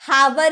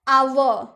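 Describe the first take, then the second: First: It begins with an 'h' sound. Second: It begins directly with a vowel sound. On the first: The speaker calls it wrong. "हावर नहीं ना बोलते हैं" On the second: The speaker calls it right.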